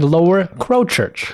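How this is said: It is said in an American accent.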